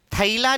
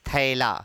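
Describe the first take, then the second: First: "थैला" as tha-ee-la, gliding to ee; old-style "tha-ee-la" for थैला; wrong, old pronunciation. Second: "थैला" with open ae, much lower pitched; correct modern pronunciation. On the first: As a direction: say थैला with a split a-ee vowel. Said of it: "नहीं". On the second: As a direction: say थैला as "thae-la", no ee glide. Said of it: "ऐ का उच्चारण करना". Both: Shown as a demonstration.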